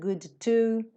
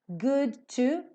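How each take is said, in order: First: The D and T are said separately. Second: The D and T merge into one sound. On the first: The speaker calls it wrong. "Nada de" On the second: The speaker calls it right. "Você vai fazer um som só"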